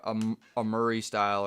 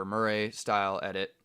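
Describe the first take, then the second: First: "Murray" said as MUR-ee; Murray ending in "ee". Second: "Murray" said as mur-RAY; Murray ending in "ray". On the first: Hedging on the rider's name, "Murray" as MUR-ee. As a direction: say "Murray" to rhyme with hurry. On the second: Giving the alternative name, "Murray" as mur-RAY. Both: Shown as a demonstration. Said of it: "regardless if we're mispronouncing his name".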